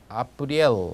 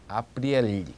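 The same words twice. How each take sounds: First: The final L is hard, tongue not raised. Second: The final L is soft, tongue raised to palate. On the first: The word has no soft sign. "미야키즈나크가 없다면 아프리엘 이렇게 될 겁니다" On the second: The word has a soft sign. "혀가 입천장 쪽으로 이렇게 붙는 경향을 보이는 소리입니다"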